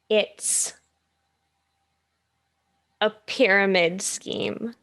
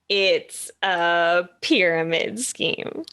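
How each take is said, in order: First: It is said at a normal pace. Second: It is said a little faster.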